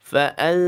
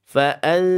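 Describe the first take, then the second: No difference in how they are said.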